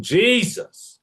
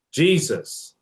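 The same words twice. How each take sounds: First: High mock scream of "Jesus!"; imitating his scream. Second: Mild yell. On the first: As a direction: exclaim "Jesus!" like a theatrical uncle. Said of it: "the way he screamed". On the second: Retold or imitated. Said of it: "I myself often yell".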